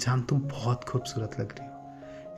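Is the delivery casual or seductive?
seductive. It is said in a seductive, intimate tone. The speaker is trying to seduce. "बहुत ही ज़्यादा seduces करते वक्त भी romantic होना"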